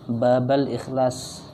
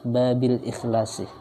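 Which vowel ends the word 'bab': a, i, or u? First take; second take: a; i. First: The word bab ends with an a vowel. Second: The word bab ends with an i vowel. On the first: The phrase is read in the accusative case. "boleh dibaca nasab" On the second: The phrase is read in the genitive case. "menurut yang asah dibaca jar"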